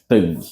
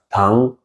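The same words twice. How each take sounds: First: It is pronounced with Portuguese sounds. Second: It is pronounced with an attempted Chinese sound. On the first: "como se diz em português" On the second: "Tem um outro som que eu vou tentar reproduzir"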